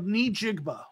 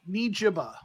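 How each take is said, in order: First: The middle is said with a 'gb' sound. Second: The middle is said without a 'g' sound. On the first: The speaker calls it right. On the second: The speaker calls it wrong.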